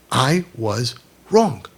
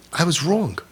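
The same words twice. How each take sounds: First: "I was wrong" very slowly, word by word; deliberate admission. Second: Said in the usual way. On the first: Acted. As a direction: pause after "I was", then land on "wrong". Parent's apology repeated word by word.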